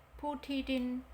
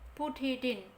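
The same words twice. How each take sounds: The two takes are said the same way.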